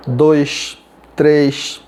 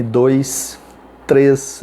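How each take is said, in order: First: "dois, três" with final S as sh; hushing plural S. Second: "dois, três" ending in a hissed s; sibilant plural S. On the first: Teacher showing Belém plurals, final S in "dois, três" hushed to sh. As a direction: end "dois" and "três" on a long sh. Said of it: "os plurais são chiantes". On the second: Teacher showing own Southeast plurals, "dois, três" with sibilant s. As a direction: finish "dois" and "três" on a clear s, not sh. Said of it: "o meu plural é sibilante". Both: Shown as a demonstration.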